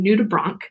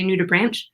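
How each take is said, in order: First: The word ends with a 'k' sound. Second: The word ends with a 'ch' sound. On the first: The speaker calls it right. "but it's actually" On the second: The speaker calls it wrong. "Most people who see this want to say"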